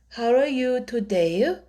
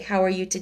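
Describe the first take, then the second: First: Extra vowel sounds follow the word endings. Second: No extra vowel sounds follow the word endings. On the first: "every word sound has a uh, vowel sound after" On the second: "instead of"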